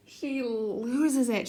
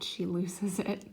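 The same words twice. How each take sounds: First: "She loses it" very slow, LOSES stretched and pitched up; drawn-out emphasis. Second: Said in the usual way. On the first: Real, not acted. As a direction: stretch out "loses" for dramatic weight.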